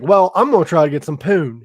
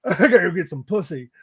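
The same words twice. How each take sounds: First: Crude mock line. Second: Laughing mock line. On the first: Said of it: "He don't say it like that". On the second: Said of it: "He doesn't say it like that".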